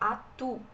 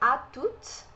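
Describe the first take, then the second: First: The final T sound is silent. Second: The final T sound is pronounced. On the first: "Aqui no à tout de suite a gente não fala o T" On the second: "Aqui a gente fala esse T"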